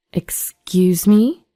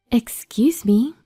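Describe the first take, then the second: First: Drawn-out, rising, indignant question; affronted disbelief. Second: Higher, slow, polite interjection; polite interruption. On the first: Woman answering ex's jibe about her weight, affronted. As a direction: stretch it out in offended disbelief. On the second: Unfamiliar woman interrupting the arguing exes, polite. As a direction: cut in politely from behind. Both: Acted.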